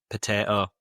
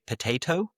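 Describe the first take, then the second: First: Yorkshire "potato", t dropped and final vowel flat; Yorkshire accent. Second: Said in the usual way. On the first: Shown as a demonstration. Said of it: "we'd say potato". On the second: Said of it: "We wouldn't say potato".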